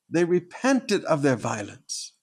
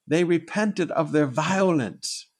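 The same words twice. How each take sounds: First: Repeated slowly with stress on "repented". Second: Slow, weighty stress on "repented"; slow emphasis. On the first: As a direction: say it again slowly, pressing "repented". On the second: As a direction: lean hard on "repented", slowly. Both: Shown as a demonstration.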